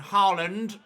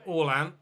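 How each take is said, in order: First: The name is said with an English pronunciation. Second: The name is said with a Norwegian pronunciation. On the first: This follows the usual English pronunciation. "rather than Haaland" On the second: This follows the native pronunciation. "in Norwegian, it's pronounced Orlan"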